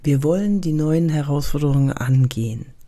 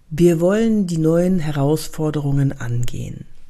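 First: Herausforderungen is swallowed and slurred. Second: Herausforderungen is spoken fully and clearly. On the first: The speaker calls it wrong. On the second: The speaker calls it right.

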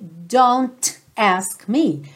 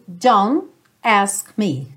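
First: The T in don't is clearly pronounced. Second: The T in don't is dropped. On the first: The speaker calls it wrong. "você não ouve don't ask me" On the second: The speaker calls it right. "você ouve don't ask me"

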